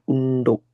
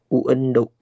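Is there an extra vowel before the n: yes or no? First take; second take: no; yes. First: No extra vowel comes before the n. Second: An extra e vowel comes before the n. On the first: The speaker calls it right. "tapi undo" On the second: The speaker calls it wrong. "Bukan uendo"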